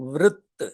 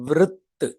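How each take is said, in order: Both takes have the same delivery.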